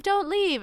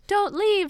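First: Pleading dog voice. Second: Much higher, a begging puppy's plea; pleading dog voice. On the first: Dog begs again as she goes, high pleading. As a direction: keep the puppy plea going. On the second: Dog begs the heroine not to leave, high pleading. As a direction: voice the dog begging her to stay. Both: Retold or imitated. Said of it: "the dog is like".

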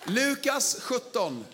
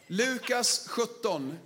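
First: Announcing the text slowly. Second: Said in the usual way. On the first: Real, not acted. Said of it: "announcing scripture".

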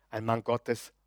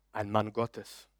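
Both takes have the same delivery.

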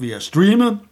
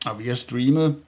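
First: "streamet" said high and loud in mock wonder; higher, louder mock "streamet"; stress on streamet. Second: Said in the usual way. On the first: Shown as a demonstration.

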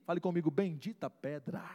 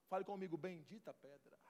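First: Louder preaching call; loud refrain. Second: Almost murmured prayer; soft refrain. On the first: Preacher to congregation, loud refrain. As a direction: proclaim it to the room. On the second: Preacher to congregation, hushed refrain. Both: Acted.

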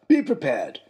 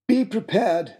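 First: Father's voice. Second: A higher, lightly voiced pompous father; father's voice. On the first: Retold or imitated. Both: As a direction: play the father proudly quoting his motto. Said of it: "is what he said".

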